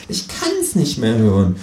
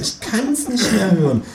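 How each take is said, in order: First: Said in the usual way. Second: High, slow exasperated kangaroo voice; fed-up kangaroo. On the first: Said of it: "sagt das Känguru im Fernseher". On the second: Acted. Kangaroo at home sick of the talk, high slow weary voice. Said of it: "sagt das Känguru zu Hause".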